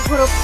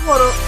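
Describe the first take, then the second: Both takes have the same delivery.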